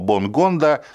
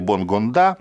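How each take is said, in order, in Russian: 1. Ударение не на последнем слоге. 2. Ударение на последнем слоге. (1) "хотя фамилия африканская" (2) "как любят некоторые говорить обязательно ... последний срок делать как будто она французская"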